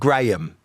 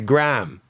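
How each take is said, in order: First: It is said with a British pronunciation. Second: It is said with an American pronunciation.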